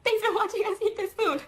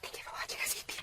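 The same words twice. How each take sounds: First: High, chirpy quoted thank-you; lightly acted cheerful sign-off, pitched high; bright retold thanks. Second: Soft unvoiced whisper into the mic; hushed ASMR thank-you to viewers. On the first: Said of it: "I said". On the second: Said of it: "it was a whispering one".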